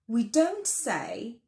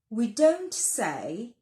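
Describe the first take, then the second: Both takes have the same delivery.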